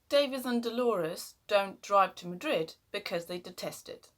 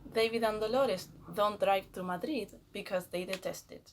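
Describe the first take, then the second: First: The d sounds are hard and firm. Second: The d sounds are soft and light.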